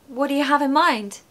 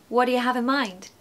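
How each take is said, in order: Both takes have the same delivery.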